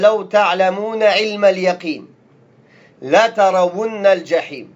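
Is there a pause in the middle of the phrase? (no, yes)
yes. There is a pause between the two parts. The two statements are separate. The speaker calls it right. "il faut le waqf... Ce n'est pas lié"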